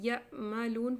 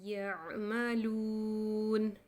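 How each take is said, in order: First: The consonant is a sharp glottal catch. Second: The consonant is a smooth sound from mid-throat. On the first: The speaker calls it wrong. "तो वो अदायगी गलत हो जाएगी" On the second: The speaker calls it right. "इसको हम पढ़ेंगे यअमलून"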